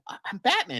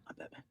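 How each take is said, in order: First: It is said hesitantly, with a stammer. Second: It is said confidently, in a Batman voice.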